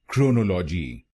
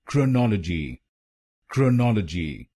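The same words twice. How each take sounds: First: chronology with weight on crow, kro-no-lo-ji; wrong stress on first. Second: chronology with weight on नॉल, krə-NɔL-ə-ji; right stress on second. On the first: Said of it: "पहले शब्दांश पर जोर डालते हैं". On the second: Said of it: "आप इसको बोलिए". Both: Shown as a demonstration.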